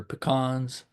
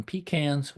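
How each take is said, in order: First: Pecans said as puh-KAHNZ; puh-KAHNS pronunciation. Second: Pecans said as PEE-canz; PEE-cans pronunciation. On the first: Speaker showing listeners the other regional way, pecans as puh-KAHNZ. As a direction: say pecans with a short "puh", then stressed "kahnz". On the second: Speaker showing listeners one regional way, pecans as PEE-canz. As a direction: say pecans with "pee" and a "can" as in tin can. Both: Shown as a demonstration. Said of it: "you either call them".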